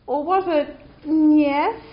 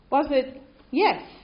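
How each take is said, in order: First: The yes sounds hesitant and unsure. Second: The yes sounds confident and sure. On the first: They only partly understood. "as in sort of, we think so" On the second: They fully understood and are ready to move on. "as in absolutely, of course, yep, we followed"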